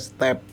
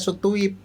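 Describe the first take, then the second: First: It is one short syllable with a plain vowel. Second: It has two syllables with a rounded vowel. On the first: This is how local people say it. "Orang Indonesia step" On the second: This is the original form in the source language. "Itu bahasa Belanda"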